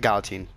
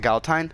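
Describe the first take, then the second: First: Put-on Galatine ending in "teen"; own pronunciation. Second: Galatine ending in "tine", rhyming with sign; rejected pronunciation. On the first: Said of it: "I say it like". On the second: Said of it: "I don't say it like". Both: Shown as a demonstration.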